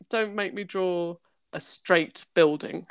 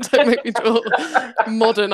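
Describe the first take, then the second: First: Said in the usual way. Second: Repeating the complaint through a laugh. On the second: Retold or imitated. Artist repeating her drawing complaint, laughing. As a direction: giggle through the words. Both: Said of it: "I'm more like".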